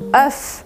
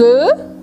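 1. O F final é pronunciado com vogal aberta. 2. O F final é mudo com vogal fechada. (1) "Essa é a palavra no singular" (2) "no plural essa palavra a gente não pronuncia o F e o som fica mais fechado"

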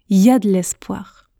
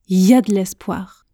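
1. Les mots sont raccourcis et enchaînés. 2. Les mots sont raccourcis et enchaînés.

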